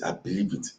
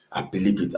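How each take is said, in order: First: Breathless awed whisper; whispered belief. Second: Said in the usual way. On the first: Retold or imitated. Recalling his joy in the vision, whispering to himself. Rejoicing at the end times.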